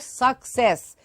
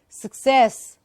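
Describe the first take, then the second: First: The first syllable sounds like a full 'suck'. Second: The first syllable is short, not a full 'suck'. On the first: The speaker calls it wrong. "it is not like someone sucking" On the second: The speaker calls it right. "It is success"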